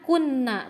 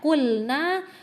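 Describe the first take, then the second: First: The L sound merges into a doubled N. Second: The L sound is pronounced clearly before N. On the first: The speaker calls it wrong. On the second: The speaker calls it right. "lamnya juga terbaca"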